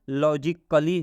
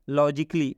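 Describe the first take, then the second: First: The vowel before the final 'ly' is pronounced. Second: The vowel before the final 'ly' is silent. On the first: The speaker calls it wrong. "नहीं पढ़ेंगे" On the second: The speaker calls it right. "अब हम इसका उच्चारण क्या करेंगे?"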